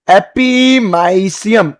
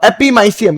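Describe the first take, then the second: First: Every syllable stretched very slowly; very drawn-out. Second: Said in the usual way. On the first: Shown as a demonstration. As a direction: drag the term right out for students. Teacher stretches new term for class. (बहुत खींचकर, धीरे-धीरे)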